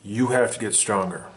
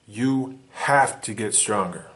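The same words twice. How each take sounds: First: Said in the usual way. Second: "have" leaned on, the whole line slowed right down; slow insistent repeat. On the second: Shown as a demonstration. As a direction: drive it home slowly, pressing on "have".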